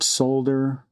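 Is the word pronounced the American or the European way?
European. It is said with the European pronunciation. "is the uh, European"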